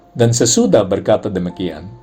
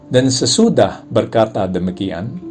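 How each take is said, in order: Both takes have the same delivery.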